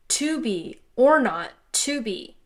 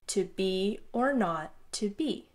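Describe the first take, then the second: First: Strong beats fall before the weak beats throughout. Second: Weak beats lead into strong beats throughout. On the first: The speaker calls it wrong. "flipped the emphasis" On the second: The speaker calls it right. "going from a weaker emphasis to a stronger emphasis in this rhythm that works"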